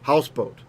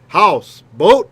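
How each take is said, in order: First: Only the first syllable is stressed. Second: Both words carry their own stress. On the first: "becomes houseboat" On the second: "House boat becomes"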